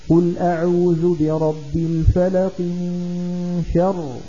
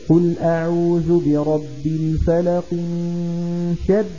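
No difference in how they are said.

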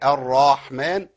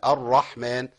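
First: A long vowel is added after the r. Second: The r moves straight to the h sound. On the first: The speaker calls it wrong. "جبت الف والله بعد الراء" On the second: The speaker calls it right. "نحذف الالف ده، ما فيش الف عندي اصلا"

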